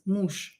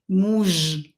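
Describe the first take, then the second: First: The word ends in a voiceless sh sound. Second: The word ends in a voiced zh sound. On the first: The speaker calls it right. "I pronounce zhe as sha" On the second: The speaker calls it wrong. "I don't pronounce it as muž"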